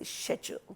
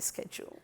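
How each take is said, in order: First: The word is said the British way. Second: The word is said the American way. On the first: The speaker calls it right. "we say schedule" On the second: The speaker calls it wrong. "Schedule is a nasty Americanism"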